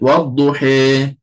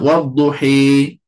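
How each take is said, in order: First: The final vowel is midway between a and i. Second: The final vowel is close to an i sound. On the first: "Kalau taqlil, wadduhi" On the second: "Kalau imalah, wadduhi. Dekat sini"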